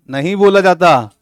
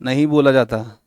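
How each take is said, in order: First: बोला stressed firmly, falling at the end; firm emphasis. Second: Said in the usual way. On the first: Shown as a demonstration. Teacher insisting to students it is not said, with firm stress. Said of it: "समझो बात को।".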